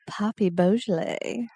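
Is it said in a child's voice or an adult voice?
adult. It is said in a non-childlike voice.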